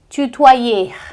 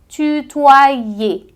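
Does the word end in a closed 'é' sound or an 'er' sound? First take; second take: er; é. First: The ending is not said as a closed é. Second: The ending is said as a closed é. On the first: The speaker calls it wrong. "É um erro muito comum de quem está começando" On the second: The speaker calls it right. "você tem que dizer como se fosse um E acentuado"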